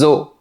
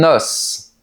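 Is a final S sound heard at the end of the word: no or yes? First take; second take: no; yes. First: The word ends without an S sound. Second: The word ends with an audible S sound. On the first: It means several bones. "le S disparaît de la prononciation" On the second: It means a single bone. "ici au singulier, on prononce le S"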